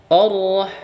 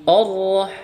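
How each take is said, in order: Both takes have the same delivery.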